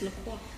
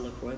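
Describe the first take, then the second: First: The name is said with a French-style pronunciation. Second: The name is said with an English-style pronunciation. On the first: This is the proper original pronunciation. The speaker calls it right. "but it's it's LaCroix. ... It's French" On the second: This is how most people say it. The speaker calls it wrong. "Everyone calls it LaCroix"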